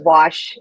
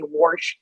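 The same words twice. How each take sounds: First: The word has no r sound before sh. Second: The word has an r sound, like warsh. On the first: This is the way the speaker was taught to say it. The speaker calls it right. "instead of wash" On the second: This is the mother's regional way of saying it. The speaker calls it wrong. "make sure I didn't say wash"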